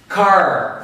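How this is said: It is said with an American accent.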